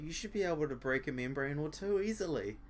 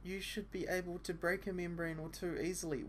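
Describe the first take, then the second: First: Dry sarcastic repeat. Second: Put-on higher girl's voice, stress on break; girl's line.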